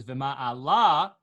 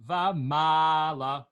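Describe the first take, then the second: First: Vima'ala with a stretched, loud final la; Vima'ala, end-stressed as a hypothetical wrong version. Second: Vamala with a slow, sung, drawn-out ma; Vamala, middle-stressed as the correct example. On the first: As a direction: carry the note of Vima'ala onto its ending. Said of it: "then the note would be on the lamed". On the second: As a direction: hold the middle of Vamala, drop la short. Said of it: "it's on the mem". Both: Shown as a demonstration.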